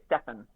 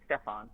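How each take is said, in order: First: Stefan as STEFF-un, ending reduced; curled-up ending. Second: Stefan as STEFF-ahn, open ending; Greg's pronunciation. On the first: Narrator shows her usual way, Stefan pronounced STEFF-un. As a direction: curl up the last syllable of Stefan, short and unstressed. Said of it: "very curled up at the end". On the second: Narrator tries a way to cheat it, Stefan pronounced STEFF-ahn. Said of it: "like Greg does". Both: Shown as a demonstration.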